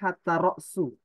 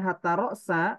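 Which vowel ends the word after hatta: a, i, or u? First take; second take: u; a. First: The second word ends with a u vowel. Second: The second word ends with an a vowel. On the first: The noun starts a new clause as its subject. "ro'su di situ dijadikan mubtada" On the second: Hatta works as a conjunction. "berarti hatta ini huruf atau"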